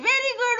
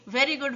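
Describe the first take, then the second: First: It is shouted at a loud, raised volume. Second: It is said at a calm, normal volume.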